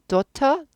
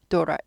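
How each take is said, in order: First: The t is pronounced clearly and fully. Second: The t is reduced to a soft flap. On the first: "daughter 발음에서" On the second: "daughter까지"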